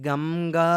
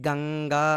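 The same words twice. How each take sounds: First: "gam-gaa", lips closing on the nasal in గంగా; wrong "m" sound. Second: "gang-gaa", nasal made at the back in గంగా; correct velar nasal. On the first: Teacher showing students how not to say it, గంగా as "gam-gaa". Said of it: "అని ఉంటే అలా పలకం". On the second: Teacher showing students the proper way, గంగా as "gang-gaa". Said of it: "అని పలుకుతాం". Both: Shown as a demonstration.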